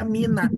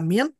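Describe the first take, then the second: First: The word ends with an a vowel. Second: The word ends on the n sound. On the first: "bisa dibaca mina. Bisa difathahkan nunnya" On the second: "itu bisa dibaca min"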